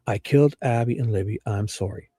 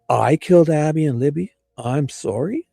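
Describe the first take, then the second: First: It sounds like a sincere confession. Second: It sounds angry and sarcastic.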